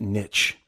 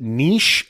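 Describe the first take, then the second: First: The word is said like 'nitch'. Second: The word is said like 'neesh'. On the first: "Or is it niche? The riches are in the niches" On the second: "niche as in N-E-E-S-H"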